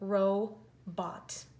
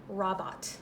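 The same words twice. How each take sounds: First: The first syllable is 'row' with a long O. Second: The first syllable is 'rob' with a short O. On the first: The speaker calls it right. "We are saying robot" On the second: The speaker calls it wrong. "this first syllable says rob, and this last one says ought. So that would say robot"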